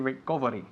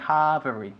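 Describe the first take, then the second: First: The vowel after the r is closed. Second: The vowel after the r is open. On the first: The speaker calls it wrong. "We don't say recovery" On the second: The speaker calls it right. "You have to lower your jaw when you say recovery"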